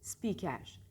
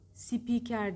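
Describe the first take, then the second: First: S and P are joined with no vowel. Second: A vowel is inserted between S and P. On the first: The speaker calls it right. "Ama S ile P arasında i yok" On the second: The speaker calls it wrong. "Speaker değil"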